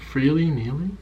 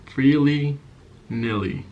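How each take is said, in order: First: "freely kneeling" with "kneeling" said like the word for kneeling down; fumbled phrase. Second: "Freely nilly" with "nilly" said short, like "willy"; corrected phrase. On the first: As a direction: say "freely kneeling" as a slip, with "kneeling" rhyming with "feeling". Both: Shown as a demonstration. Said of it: "how does that sound?".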